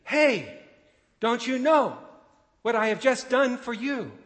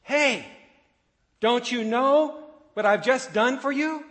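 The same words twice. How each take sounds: First: Second full-lung scream, much higher and louder; screaming again. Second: Screamed at the top of the lungs, much higher and louder; desperate scream. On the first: Father screaming once more at the train, desperate yell. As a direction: cry out again, pleading and unheard. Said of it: "so he screamed again". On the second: Father on the bridge screaming at oblivious passengers, full-throated scream. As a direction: yell across at the passing train with everything you have. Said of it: "John screamed at the top of his lungs". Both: A narrator's reading.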